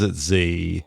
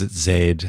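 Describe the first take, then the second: First: The letter is said the American way. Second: The letter is said the Australian way.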